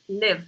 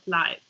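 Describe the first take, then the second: First: The vowel is short, rhyming with 'give'. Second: The vowel is long, rhyming with 'five'. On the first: It is the verb meaning to reside. The speaker calls it right. "when you are talking about the verb, that's live" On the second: It is the adjective, as in a live show. The speaker calls it wrong. "not live"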